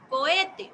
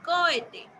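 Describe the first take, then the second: First: The stress is on the second syllable. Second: The stress is on the first syllable. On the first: The speaker calls it right. "ya no va a decir cohete" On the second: The speaker calls it wrong. "Si yo pronuncio más fuerte, por ejemplo en cohete, la sílaba co"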